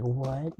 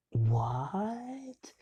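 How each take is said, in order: First: Short mock anime gasp of surprise; quick, lightly hammed-up anime reaction; typical anime shock. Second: High, drawn-out, rising cry of disbelief; astonished classmates. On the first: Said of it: "Like, the typical anime". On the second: Retold or imitated. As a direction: stretch it upward in mock shock.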